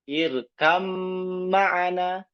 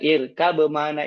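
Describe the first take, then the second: First: The b merges fully into the following m. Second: The b is kept, with a slight break. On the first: It is easier and quicker to say in urgency. The speaker calls it right. "menyatukan huruf ba ke mim" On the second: It takes more time and effort to say. The speaker calls it wrong. "mensukunkan huruf ba ... ada jeda"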